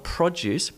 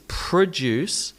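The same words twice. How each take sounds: First: PRO-duce with a full O; first-syllable stress. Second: Pruh-DUCE, first vowel reduced; weak pruh then DUCE in "produce"; schwa, second-syllable stress. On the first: Teacher shows what to avoid, PRO-duce. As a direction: say "produce" the noun's way, PRO strong. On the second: Teacher corrects the take, pruh-DUCE. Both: Shown as a demonstration. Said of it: "not produce".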